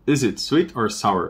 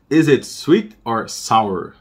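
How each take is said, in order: First: Said in the usual way. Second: Slow model sentence. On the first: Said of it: "normal-speed repeat". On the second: Shown as a demonstration. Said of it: "slow model read for students".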